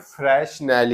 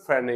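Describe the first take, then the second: First: Both the s and the final l are sounded. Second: Both the s and the final l are silent. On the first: "हम देखो इसे बोलते हैं फ्रेशनेल" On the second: "British को देखोगे तो एल भी silent है"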